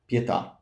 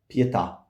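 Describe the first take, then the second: The two takes are said the same way.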